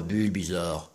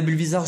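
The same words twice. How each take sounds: First: Low, deep Bulbizarre impression; big deep voice. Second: Said in the usual way. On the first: Fan imitating the Pokémon he adores, in a big deep voice. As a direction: drop right down into a big creature voice. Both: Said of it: "avec sa grosse voix grave".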